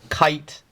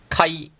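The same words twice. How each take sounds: First: The final t is clearly released. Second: The final t is held, not released. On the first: The speaker calls it wrong. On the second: The speaker calls it right.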